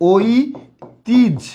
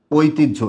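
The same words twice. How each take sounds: First: "ঐতিহ্য" drawn out slowly, broken as oi... tij; careful correct pronunciation. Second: "ঐতিহ্য" said whole as oi-tij-jho; correct pronunciation. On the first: Teacher shows students the correct sound of "ঐতিহ্য", slow syllable-by-syllable pronunciation. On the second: Teacher repeats the right answer to students, "ঐতিহ্য" pronounced oi-tij-jho in one go. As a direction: join "ঐতিহ্য" into one word, ending in jho. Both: Shown as a demonstration. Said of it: "সঠিক উচ্চারণটা হবে".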